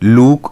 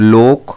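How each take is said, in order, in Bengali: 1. স্বরধ্বনিটি 'u'-এর মতো উচ্চারিত হয়। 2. স্বরধ্বনিটি 'o'-এর মতো উচ্চারিত হয়।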